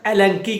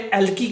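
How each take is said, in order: First: It is said the local way, with a nasal. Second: It is said the Pakistani way, without nasal. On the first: This is how it is said locally. "इधर एलंकी कहा जाता है" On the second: This is how it is said in Pakistan. "Pakistan में एलकी कहा जाता है"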